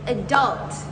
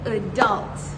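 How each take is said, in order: First: It is said in an American accent. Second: The same.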